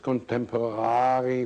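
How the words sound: It is said with a German-like accent. This is how the character says it. "He says contemporary"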